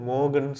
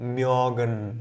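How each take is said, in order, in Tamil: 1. முதல் உயிரெழுத்து சாதாரண 'o' ஒலி. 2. முதல் உயிரெழுத்து முன்னகர்ந்த 'ö' ஒலி. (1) "புள்ளி இல்லைன்னா நம்ம மோகன் சொல்லுவோம்" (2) "புள்ளி வர்றதுனால"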